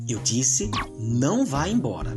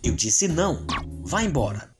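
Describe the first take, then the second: First: There is no pause after não. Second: There is a pause after não.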